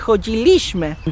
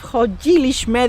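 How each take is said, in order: First: The stress falls on the second-to-last syllable. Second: The stress falls before the second-to-last syllable. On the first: "they would say" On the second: "instead of"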